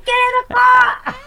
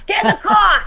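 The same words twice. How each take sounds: First: High, loud, slower fishwife yell; Jersey fishwife yell. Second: Put-on loud, high yell at the kids; Jersey mom yelling. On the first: Retold or imitated. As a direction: holler it at the kids, Jersey mom. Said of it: "Like that". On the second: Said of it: "Jersey fishwife voice".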